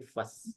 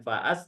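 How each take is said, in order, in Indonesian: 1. Vokal setelah f pendek. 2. Vokal setelah f panjang. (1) "tapi fas" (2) "bukan faas"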